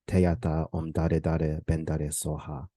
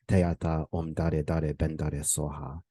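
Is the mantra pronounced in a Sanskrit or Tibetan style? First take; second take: Tibetan; Tibetan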